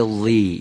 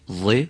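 First: وی with a thin, drawn-down "ee"; wrongly bent-down vowel. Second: و as a heavy "ẓe", vowel not bent down; heavy kasra. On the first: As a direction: bend the vowel of وی down into a clear "ee". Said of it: "اینطور نشه". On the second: Teacher giving the corrected kasra, heavy sound. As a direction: keep و thick, short of a thin "ee". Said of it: "اون که کسره داره دیگه لازم نیست". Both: Shown as a demonstration.

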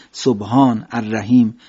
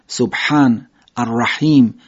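First: ح in سبحان as a plain Persian h; no throat friction on سبحان. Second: Slow, breathy throat ح in سبحان and الرحیم; Arabic ḥ. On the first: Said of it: "عربی نگیم". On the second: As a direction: push air from the throat on سبحان. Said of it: "در هی جیمی هم همینطور". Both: Shown as a demonstration.

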